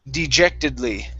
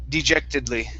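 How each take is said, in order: Both takes have the same delivery.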